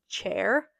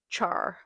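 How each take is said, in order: First: Said in the usual way. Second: "chair" said like "char", falling; own accent pronunciation. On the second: Shown as a demonstration. Showing the funny accent word, "chair" as "char". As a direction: open "chair" out to an "ar" vowel. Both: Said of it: "That's the funniest one".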